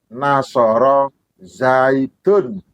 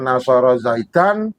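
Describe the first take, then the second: First: The name ends with a u vowel. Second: The name ends with an a vowel. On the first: The speaker calls it right. "harus dibaca" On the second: The speaker calls it wrong. "Tidak boleh dibaca"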